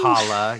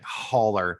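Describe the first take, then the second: First: The word is said in a casual, non-white-guy way. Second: The word is said like a stereotypical white guy. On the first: "instead of" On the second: "you really made it like you said it like a super white guy though"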